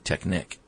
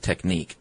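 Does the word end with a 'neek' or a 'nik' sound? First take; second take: nik; neek. First: The word ends with a short 'nik' sound. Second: The word ends with a long 'neek' sound. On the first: The speaker calls it right. "It's really Technic" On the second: The speaker calls it wrong. "but not Technique"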